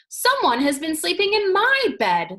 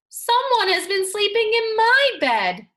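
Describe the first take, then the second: First: It is said in a middle-sized voice. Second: It is said in a wee small voice.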